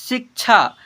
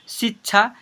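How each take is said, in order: Both takes have the same delivery.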